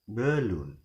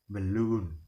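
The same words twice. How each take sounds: First: The stress is on the first syllable. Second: The stress is on the second syllable. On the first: The speaker calls it wrong. "not balloon" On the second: The speaker calls it right. "we will pronounce it as balloon"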